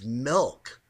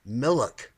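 First: The word is said with one syllable. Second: The word is said with two syllables. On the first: The speaker calls it right. "It's not Millick, it's milk" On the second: The speaker calls it wrong. "a lot of people will say"

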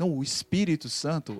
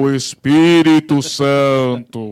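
First: It is said in a calm, casual tone. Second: It is said in a dramatic, frightening tone.

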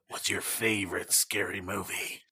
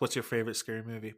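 First: It is said in a put-on, menacing movie-villain voice. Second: It is said in an ordinary speaking voice.

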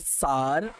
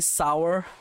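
First: Said in a heavy Indian accent. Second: Said in a plain, non-Indian accent. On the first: "They say sar" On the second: "they don't say sour"

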